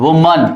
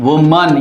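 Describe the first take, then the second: Both takes have the same delivery.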